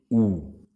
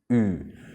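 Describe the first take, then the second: First: The vowel has the tongue pulled back. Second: The vowel has the tongue forward, lips rounded. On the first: The speaker calls it wrong. "no se dice U" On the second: The speaker calls it right. "se dice U"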